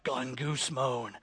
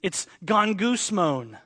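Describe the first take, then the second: First: Low, soft, slow grumbled gongusmon; grumbling guy. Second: Gongusmon said slowly as gon-goos-mohn; Greek word shown slowly. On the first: Retold or imitated. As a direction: mutter gongusmon like a sulky complainer. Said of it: "some guy was like". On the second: Shown as a demonstration. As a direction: spell out gongusmon slowly, syllable by syllable. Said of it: "sounds like it should be the Greek word".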